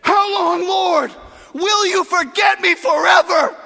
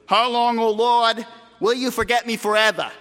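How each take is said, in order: First: High, loud desperate cry; impassioned lament at full voice; anguished shout to God. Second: Prim New England recitation; formal New England accent, evenly declaimed; New Englander. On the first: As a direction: shout your complaint up to heaven. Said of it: "David didn't say it like that. He said". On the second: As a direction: read it like a proper New Englander. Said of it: "Don't read it like a New Englander". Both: Shown as a demonstration.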